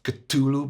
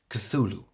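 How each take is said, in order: First: The t sound is strong and hard. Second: The t sound is light and soft. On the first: The speaker calls it wrong. "not too much t" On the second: The speaker calls it right. "Make it soft"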